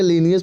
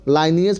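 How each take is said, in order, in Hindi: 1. पहला स्वर 'lee' जैसा बोला जाता है। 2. पहला स्वर 'lie' जैसा बोला जाता है। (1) "दोनों तरह से पढ़ा जाता है" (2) "दोनों तरह से पढ़ा जाता है"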